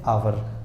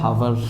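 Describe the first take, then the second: First: The word starts directly with a vowel. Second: The word starts with an h sound. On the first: The speaker calls it right. "लेकिन हम इसको क्या बोलना है" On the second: The speaker calls it wrong. "ये लिखा होता है हावर"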